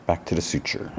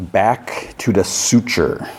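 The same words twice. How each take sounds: First: Title repeated much softer, as an aside; quiet repeat. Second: Episode title read out slowly, word by word; slow title announcement. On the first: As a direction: say it softly to yourself. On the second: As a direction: announce the title with drawn-out words. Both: Real, not acted.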